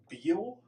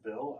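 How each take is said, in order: First: The vowel is a long 'ee' sound. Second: The vowel is a short 'i' sound. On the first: This is the speaker's own odd way of saying it. "I say Beal" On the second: This is how most people say it. "most people say Bill"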